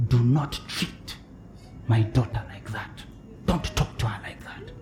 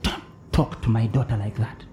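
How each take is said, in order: First: Hushed, stern divine warning; softly voicing the Spirit's rebuke; God's whisper. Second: Soft, low, stern warning; quietly voicing the Spirit; God's whisper. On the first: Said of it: "had the Spirit of God whisper to me". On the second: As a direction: hush it like a divine rebuke. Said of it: "He just whispers".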